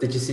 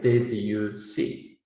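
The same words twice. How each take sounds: First: The words 'did you' are run together. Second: The words 'did you' are said separately. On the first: This is natural fast speech. "you say something like" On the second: This is easier for international listeners to understand. "reduce features of connected speech"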